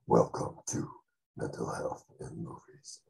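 It is said in a dramatic trailer voice.

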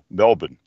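It is said with an Australian pronunciation.

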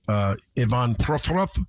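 The name is said with a Russian pronunciation. "I think in his country it would be Ivan"

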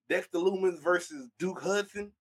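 It is said in a country accent.

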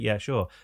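It sounds happy and willing.

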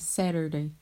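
It has an American accent with a flapped T.

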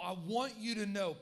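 It is said in a warm, caring tone.

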